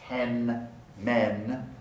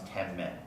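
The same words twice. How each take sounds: First: Ten ends in an n sound. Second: Ten ends in an m sound. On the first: "the alveolar nasal" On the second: "becomes labial"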